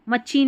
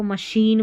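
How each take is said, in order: First: मशीन wrongly said "ma-cheen"; wrong pronunciation. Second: मशीन said "ma-sheen"; correct pronunciation. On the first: Teacher shows learners the mistake, mispronounced "ma-cheen". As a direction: put a ch sound in the middle of मशीन. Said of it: "मशीन नहीं बोलते". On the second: Teacher corrects the word for learners, pronounced "ma-sheen". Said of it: "इसको मशीन बोलते हैं". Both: Shown as a demonstration.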